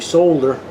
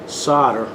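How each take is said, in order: First: It is said the way Australian speakers say it. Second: It is said in the speaker's own American way.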